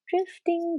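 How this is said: The word is said in a gentle, kind tone. The wandering mind is simply noticed without judgment. The speaker calls it right. "make sure the tone of the drifting is kind"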